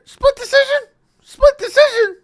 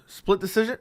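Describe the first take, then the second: First: Very high, loud squeal of disbelief; shocked. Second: Said in the usual way. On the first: Shown as a demonstration. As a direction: shriek it in high-pitched shock. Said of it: "when I'm just shocked". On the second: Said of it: "my voice actually goes".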